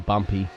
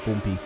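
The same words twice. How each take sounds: First: It is said in an Australian accent. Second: It is said in a British accent.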